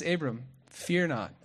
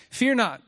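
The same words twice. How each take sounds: First: Gentle reassurance. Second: Louder and higher, proclaiming it; bold declaration. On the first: God calms the frightened Abram. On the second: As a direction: call it out with force. God introduces himself to Abram. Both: Retold or imitated.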